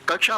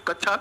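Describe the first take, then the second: First: कक्षा said as "kak-sha"; correct क्ष sound. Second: कक्षा mispronounced as "kachchha"; wrong छ sound. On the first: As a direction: give कक्षा a clear k before sh. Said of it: "तो कक्षा होगा साथी". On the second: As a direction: replace the k-sh in कक्षा with a doubled chh. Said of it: "इसको छह मत बोला करो". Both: Shown as a demonstration.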